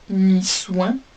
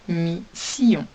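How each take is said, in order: First: The second syllable sounds like 'swan'. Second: The second syllable sounds like 'see-on'. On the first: The speaker calls it wrong. "on ne lisait pas mi-soin puisque l'ordre des lettres n'est pas respecté" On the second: The speaker calls it right. "Nous lisons donc"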